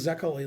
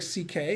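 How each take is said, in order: First: The name is said as three syllables, Zekeli. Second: The name sounds like the two letters C K. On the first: The speaker calls it wrong. "It's not pronounced Zekeli like you would pronounce it" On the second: The speaker calls it right. "it's pronounced like C K"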